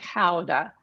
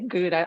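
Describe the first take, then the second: First: The word is said with a Dutch pronunciation. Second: The word is said with an English pronunciation. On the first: "if you're in Holland, you're going to say Gouda" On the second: "I think I'm going to say Gouda"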